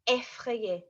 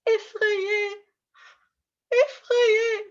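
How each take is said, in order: First: Said in the usual way. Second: High, frightened little cry; hammed-up fearful squeal; acted scared. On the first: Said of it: "So the first one is". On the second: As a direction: act out being afraid, pitched well up. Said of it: "if I show you some different emotions".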